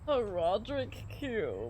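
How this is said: It is said in a frail voice.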